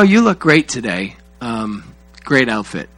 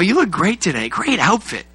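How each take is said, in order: First: The voice sounds flat and indifferent. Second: The voice sounds warm and enthusiastic. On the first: The speaker does not seem to care. The speaker calls it wrong. "See that face right there? That's what I get" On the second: The speaker seems to care. The speaker calls it right. "you must say it differently if you want to sound like you care"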